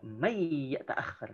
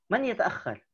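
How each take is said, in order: First: "man yata'akhir" as a softer, held "mayy-yata'akhir"; Quranic-style merging. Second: Said in the usual way. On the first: Shown as a demonstration. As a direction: draw out the merged y in "man yata'akhir", with no clear n. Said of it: "kalau pakai bacaan Al-Quran". ("man yata'akhir" dilebur dan ditahan jadi "mayyy-yata'akhir") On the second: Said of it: "kalau misalnya lagi ngomong".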